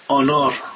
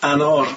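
First: The first vowel is a long open aa. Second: The first vowel is a short front a. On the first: The speaker calls it wrong. "میگفت آنار" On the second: The speaker calls it right. "گفتم بگو انار"

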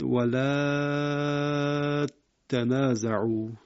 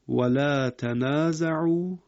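First: The vowel is stretched long and the t doubled. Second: The vowel is short and the t single.

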